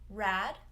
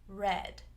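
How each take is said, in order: First: The vowel sounds like the one in cat. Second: The vowel sounds like the one in bed. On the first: The speaker calls it wrong. "where it might sound like rad. So we don't want rad" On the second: The speaker calls it right. "we want eh, red"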